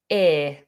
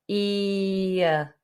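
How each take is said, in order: First: The vowel stays as one steady sound. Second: The vowel glides from one sound to another. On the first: "a lot of natives will just say ear" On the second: "make the movement"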